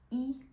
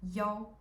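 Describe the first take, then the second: First: The word is pronounced yi. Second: The word is pronounced yao. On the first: It means one of something. "the character one" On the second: It is a digit in a room or phone number. "is pronounced yao in here"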